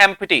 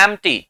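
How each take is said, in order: First: "एम्प्टी" as em-pi-tee, with an audible p; wrong pronunciation. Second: "एम्प्टी" as em-tee, silent p; correct pronunciation. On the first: Teacher rejecting this form, p pronounced. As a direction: sound every letter of "एम्प्टी", p included. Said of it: "ये होता नहीं है". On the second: Teacher giving the correct form, p left silent. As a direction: go from m straight to t in "एम्प्टी". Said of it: "इसको बोलते हैं". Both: Shown as a demonstration.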